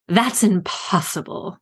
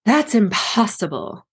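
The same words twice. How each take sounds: First: Queen's snap. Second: A sharp, slow queenly snap; imperious snap at her advisor; snapped. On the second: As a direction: bite off each word coldly. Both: A narrator's reading. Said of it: "Mother snapped".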